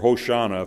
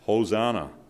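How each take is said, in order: First: The word is said in its Hebrew form. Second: The word is said in its usual English form.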